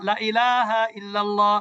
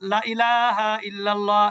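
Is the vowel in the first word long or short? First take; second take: short; short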